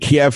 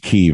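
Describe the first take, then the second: First: The city name gets its long-familiar pronunciation. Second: The city name gets its newer, current pronunciation. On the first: This is the way it was long said. "I called it Kiev for all these years" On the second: This is the way now held correct. "now all of a sudden the current correct pronunciation is Kiev"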